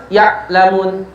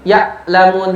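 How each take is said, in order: The two takes are said the same way.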